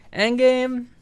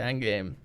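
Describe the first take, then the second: First: High, loud excited shout; excited squeal. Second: Said in the usual way. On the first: Real, not acted. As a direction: squeal the title with glee. Squealed title, higher still.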